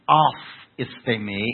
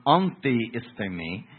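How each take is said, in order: First: "aphistemi" said as ah-FEES-tay-mee with a firm, stressed AF- opening; correct Greek. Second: "antihistemi" said as in antihistamine, the anti- form set up as the wrong one; "antihistemi" with ANTI- up front, the version to reject. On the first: Preacher correcting the congregation on the Greek, firm and clear. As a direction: land "aphistemi" clearly as the right word. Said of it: "This is aphistemi". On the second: Preacher contrasting the wrong word for the congregation, plain pronunciation. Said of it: "This is not antihistemi". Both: Shown as a demonstration.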